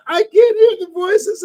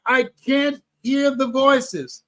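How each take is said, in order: First: Higher and louder retold panic; mock frantic cry; panicked. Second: Slow, stuck, retold fear; a hint of panic; scared. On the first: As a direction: plead it up high in alarm. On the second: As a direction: say it frozen and unsure. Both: Retelling panic before big speech.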